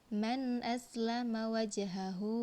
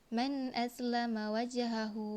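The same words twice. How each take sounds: No difference in how they are said.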